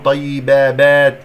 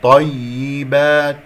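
First: طيبابات with a wrongly lengthened "ba" added, loud; extra alif. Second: طيبات slow, with a stressed doubled ي and clear "i"; clear kasra. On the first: Teacher showing the mistake, extra alif. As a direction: stretch a false alif into طيبابات. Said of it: "هذه ألف خطأ". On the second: Teacher reciting the correct form, clear kasra. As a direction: lean on the doubled ي in طيبات, long final "aat". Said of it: "ونكسرها جيدا". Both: Shown as a demonstration.

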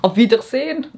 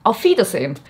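First: "Auf Wiedersehen" with a French lilt, rising at the end; French accent on "Auf Wiedersehen", rising; French-accented German. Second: "auf Wiedersehen" said the German way, falling firmly; proper German "auf Wiedersehen" with a falling end; corrected German. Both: Shown as a demonstration. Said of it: "French accent when I say a German word".

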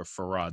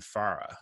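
First: Farah stressed on the second syllable; alternative pronunciation of name. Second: Farah stressed on the first syllable; first pronunciation of name. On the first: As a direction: say Farah as fuh-RAH, stress at the end. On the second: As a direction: say Farah as FAR-uh, stress up front. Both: Shown as a demonstration. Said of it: "depending on the accent".

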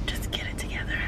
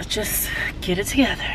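First: Very soft breath-only whisper; whispered self-talk. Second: Said in the usual way. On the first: Real, not acted. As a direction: whisper it to steady yourself. Pep talk to herself, whispered.

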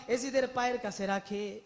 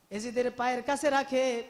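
No difference in how they are said.

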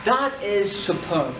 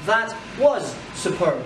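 First: That frappé, That is superb lent; appui sur that. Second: Was appuyé, That was superb lent; appui sur was. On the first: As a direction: pose That is superb, That accentué. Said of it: "exemple avec is". (That is superb, accent sur That) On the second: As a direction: pose That was superb, was accentué. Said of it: "exemple avec was". (That was superb, accent sur was) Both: Shown as a demonstration.

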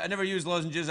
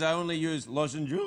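First: Said in the usual way. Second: "lozenges" as "lozen-jooo", held long; comic mispronunciation. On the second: Shown as a demonstration. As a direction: stretch the end of "lozenges" into a long "joooo". Contrasts two ways of saying lozenges.

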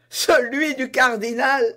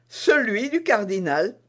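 First: High, loud laughing exclamation; bursting with laughter. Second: Lightly raised, composed reply; calm confirmation. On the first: D'Artagnan recognizing the cardinal's purse, laughing loudly. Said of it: "s'écria en éclatant de rire D'Artagnan". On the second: Constance answering D'Artagnan, calmly confirming the purse. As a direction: confirm it simply, no laughter. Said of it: "répondit madame Bonacieux". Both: Acted.

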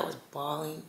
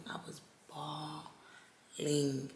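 First: Said in the usual way. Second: BAWLING stretched out very slowly and softly; emphatic bawling. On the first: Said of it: "y'all don't understand". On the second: Real, not acted. Telling viewers how hard she cried, BAWLING drawn out for emphasis. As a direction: draw BAWLING out in two long, hushed syllables. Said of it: "When I said I was bawling".

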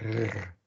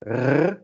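First: R barely trilled, close to a throaty G; a lightly enunciated uvular r; soft uvular R, almost a G. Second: R with a strong uvular trill at the back of the throat; a fully enunciated Dutch uvular R; trilled uvular R, strongly enunciated. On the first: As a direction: let r slide back in the throat like a soft G. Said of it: "a less enunciated version would be r". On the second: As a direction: roll R hard against the uvula. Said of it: "an enunciated version of that". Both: Shown as a demonstration.

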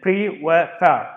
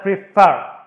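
First: "pre" and "far" slowly separated; syllable by syllable. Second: "prefer" with the second syllable punched louder; stress on second syllable. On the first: Teacher counting two syllables for students, "pre" and "far" slowly separated. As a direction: break it into "pre", then "far". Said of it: "two syllable". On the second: Teacher showing where the stress falls, "prefer" stressed on its second syllable. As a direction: lean hard on the end of "prefer". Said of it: "ال second syllable". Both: Shown as a demonstration.

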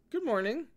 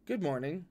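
First: Bright high greeting from the juniors; higher voiced greeting. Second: Flat, stiff greeting; forced calm. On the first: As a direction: lift the pitch, greet brightly. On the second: Acted. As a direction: say it with strained composure. Jinling replies with forced calm.

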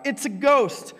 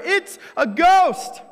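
First: High frightened cry; a sudden scared yell, voice jumping up; cried out in fear. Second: High, loud, slow shriek of terror; terrified scream. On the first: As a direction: shout it like you've seen a ghost. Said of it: "they cried out". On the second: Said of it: "their first response is in terror". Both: A narrator's reading.

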